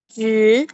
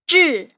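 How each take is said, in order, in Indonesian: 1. Diucapkan dengan nada kedua, naik. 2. Diucapkan dengan nada keempat. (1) "nada kedua itu berarti naik" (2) "nada keempat itu"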